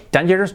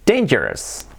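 First: Dangerous wrongly as DAN-jeros; pronunciación incorrecta. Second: Dangerous as DEIN-jers; pronunciación correcta. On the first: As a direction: say "dangerous" with Spanish a. (dangerous mal dicho, 'dan-yeros') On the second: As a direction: say "dangerous" with ei, falling. (dangerous bien dicho, 'déin-yers') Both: Shown as a demonstration.

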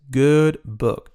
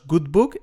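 First: "good book" with a short open o, /bok/, said slowly; "book" short and near O, /bok/; correct good book. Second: "good book" with a full Spanish u, /buk/; "book" said /buk/, the vowel too long; wrong good book. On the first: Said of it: "es good book". ("book" corto, casi con O, /bok/) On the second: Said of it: "no es good book". ("book" con u española, /buk/) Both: Shown as a demonstration.

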